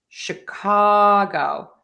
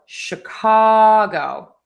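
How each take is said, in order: No difference in how they are said.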